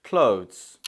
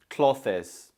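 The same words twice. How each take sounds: First: "clothes" in one syllable, klohdhz; long-o "clothes", no extra vowel; correct clothes. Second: "clothes" as two syllables, CLOTH-iz; wrong two-syllable clothes. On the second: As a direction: mispronounce "clothes" with a short o, th and an extra -iz. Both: Shown as a demonstration. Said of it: "The correct option is B".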